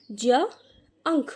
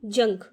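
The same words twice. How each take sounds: First: J and "unk" as separate sounds; sounding out "junk". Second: J and "unk" joined up; "junk" blended. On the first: Teacher showing how to read j-u-n-k, sounding out "junk". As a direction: pause between j and "unk". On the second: Teacher completing j-u-n-k, "junk" blended. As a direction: say "junk" as one whole word. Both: Shown as a demonstration. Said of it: "इसके हम पढ़ेंगे".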